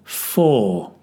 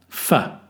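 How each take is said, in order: First: The word is said with a full vowel. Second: The word is said with a reduced vowel. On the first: "Strong form" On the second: "weak form"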